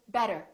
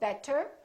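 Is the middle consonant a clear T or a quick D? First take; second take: quick D; clear T. First: The middle consonant is a quick D. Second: The middle consonant is a clear T. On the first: The speaker calls it right. "it becomes this fast D sound" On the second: The speaker calls it wrong. "we don't say better"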